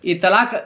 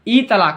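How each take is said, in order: First: The syllables run together as one word. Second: 'Ee' is set apart from 'talaak'. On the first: The speaker calls it wrong. "इतलाक नहीं बोलिए" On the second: The speaker calls it right. "ई तलाक बोलना है"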